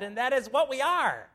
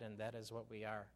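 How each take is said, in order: First: It is read in an excited, emphatic voice. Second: It is read in a flat, unexcited voice. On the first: The speaker calls it right. "we have two exclamation points in this verse" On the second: The speaker calls it wrong. "I invariably always hear something that goes like this"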